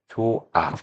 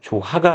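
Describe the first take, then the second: First: No h sound is heard between the syllables. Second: An h sound is heard between the syllables. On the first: The speaker calls it right. "그대로 시읒이 탈락이 됩니다" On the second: The speaker calls it wrong. "조하가 아니라"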